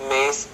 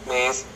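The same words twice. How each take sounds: The two takes are said the same way.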